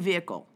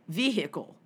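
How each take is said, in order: First: It is said in a neutral accent. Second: It is said in a Southern US accent.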